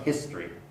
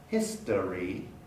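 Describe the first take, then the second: First: The word is said with two syllables. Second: The word is said with three syllables.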